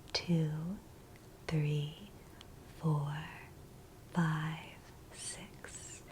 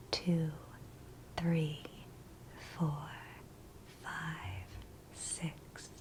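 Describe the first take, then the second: No difference in how they are said.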